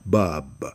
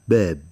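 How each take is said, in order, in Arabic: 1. الصوت منفتح وخلفي، غير مُمال. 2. الصوت مُمال قليلًا نحو 'ee'. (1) "في العراق والخليج في كلمة باب ألفا غير ممالة" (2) "ونجد في مصر إمالة أقل"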